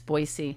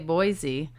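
First: The name is said the way locals say it. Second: The name is said the common outsider way. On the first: This is how people who live there say it. The speaker calls it right. "if you're a local, ... it's Boise" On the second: This is how most people say it. The speaker calls it wrong. "People always say Boise"

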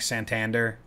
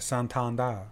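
First: The name is said plainly with hard sounds. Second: The name is said softly and daintily.

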